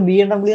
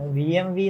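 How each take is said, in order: First: The last letter is said as 'double-u'. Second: The last letter is said as 'vee'. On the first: This is how people here usually say it. The speaker calls it wrong. "നമ്മള് B M ഡബ്ല്യൂ എന്നല്ലേ പറയത്തുള്ളൂ" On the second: This is the original pronunciation. The speaker calls it right. "B M വി എന്നാണ് യഥാർത്ഥ പ്രൊനൗൺസിയേഷൻ"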